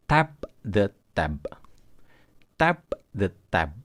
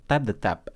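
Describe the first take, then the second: First: Slow, separated "Tap the tab" with released P and B; exploded final consonants. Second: "tap the tap" run together with unreleased final stops; no explosion. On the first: Teacher separates tab from tap, slow with exploded final consonants. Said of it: "itu hanya untuk membedakan saja". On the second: Teacher shows everyday speech, final stops without explosion. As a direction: leave the endings of "tap the tap" unreleased, casually joined. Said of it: "kita tidak menggunakan explosion di situ". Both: Shown as a demonstration.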